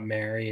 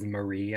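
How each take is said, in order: First: Mary said like the name Mary, MEH-ree; the wrong way: Mary, stress on the first syllable; wrong pronunciation. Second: Marie said muh-REE, stress at the end; the right way: Marie, stress on the last syllable; corrected pronunciation. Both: Shown as a demonstration. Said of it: "It is not Mary".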